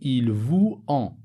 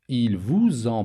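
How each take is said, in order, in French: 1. Vous et en se disent sans liaison en z. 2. Un son z fait la liaison entre vous et en. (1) "Je ne peux pas dire" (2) "La liaison ici entre vous et en est obligatoire"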